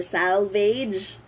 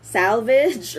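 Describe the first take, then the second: First: Salvage drawn out as "SAL-veydge"; Filipino-style pronunciation. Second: Salvage drawn out as "SAL-vidge"; correct pronunciation. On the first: Teacher offering the other version, salvage slowly as "SAL-veydge". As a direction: say salvage slowly, ending like "vayj". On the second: Teacher offering two versions, salvage slowly as "SAL-vidge". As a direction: say salvage slowly, short i in the ending. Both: Shown as a demonstration. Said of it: "that's the correct pronunciation".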